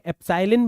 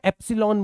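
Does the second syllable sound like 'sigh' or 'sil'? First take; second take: sigh; sil. First: The second syllable sounds like 'sigh'. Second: The second syllable sounds like 'sil'. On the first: "एप्साइलिन बोल सकते हो" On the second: "या एप्सिलॉन बोला जा सकता है"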